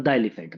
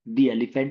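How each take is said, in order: First: 'The' is said with a short 'uh' vowel. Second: 'The' is said with a long 'ee' vowel. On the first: The speaker calls it wrong. "द elephant नहीं होगा" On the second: The speaker calls it right. "दी elephant होगा"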